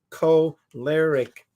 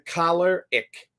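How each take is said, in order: First: It does not begin like 'collar'. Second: It begins with a sound like 'collar'. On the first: The speaker calls it right. "Using the preferred pronunciation" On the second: The speaker calls it wrong. "like a shirt collar"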